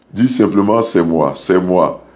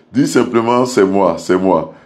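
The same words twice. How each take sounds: The two takes are said the same way.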